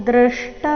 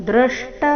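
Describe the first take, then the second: Both takes have the same delivery.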